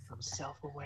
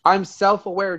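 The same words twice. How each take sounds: First: Breathy whispered repeat. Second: Said in the usual way. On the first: Shown as a demonstration. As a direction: whisper it to yourself.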